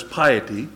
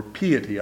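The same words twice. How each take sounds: First: Piety said PIE-uh-tee; long "eye" in the first syllable of piety; first pronunciation variant. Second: Piety said PEE-uh-tee; "ee" in the first syllable of piety; alternative pronunciation variant. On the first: Preacher unsure of his Bible's word, piety as PIE-uh-tee. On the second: Preacher offering another way to say the word, piety as PEE-uh-tee. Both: Shown as a demonstration. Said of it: "don't know how to pronounce".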